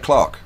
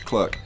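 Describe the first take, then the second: First: It is said the British way, like 'clark'. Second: It is said the American way, like 'clurk'.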